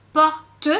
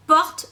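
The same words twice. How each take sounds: First: "porte" en deux temps, le "te" final bien prononcé; détache "porte" en por-te, lentement; découpé en syllabes écrites. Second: "porte" d'un seul bloc, sans e final; une seule syllabe orale. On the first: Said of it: "des syllabes écrites". (« porte » scandé por-te, e final sonore) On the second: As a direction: dis "porte" en un temps, finale muette. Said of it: "Là on parle en syllabe orale". (« porte » prononcé à l'oral, en une syllabe) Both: Shown as a demonstration.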